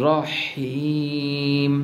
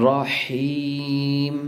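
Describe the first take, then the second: The two takes are said the same way.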